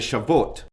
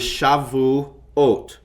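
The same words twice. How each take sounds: First: The word is said quickly with smoothed syllables. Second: The word is said slowly with distinct syllables. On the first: This is how it sounds in everyday speech. "It's more commonly smoothed out when it's being spoken" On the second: This shows the full form of the word. "But the actual word is"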